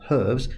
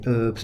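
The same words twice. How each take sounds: First: The word starts with an h sound. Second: The word starts without an h sound. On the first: "not herbs" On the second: "the French drop their ages. They say herbs"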